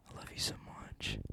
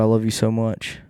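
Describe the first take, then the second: First: Breathy unvoiced whisper of love. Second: Said in the usual way. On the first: Whispering love to the listeners. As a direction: whisper it close, like a secret.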